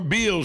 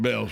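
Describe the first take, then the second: First: The vowel is a long 'ee' sound. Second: The vowel is a short 'e' sound. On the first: This is how a friend says the name. "he pronounces it the way it's spelled" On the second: This is how most people say the name. "But instead we call it Bells"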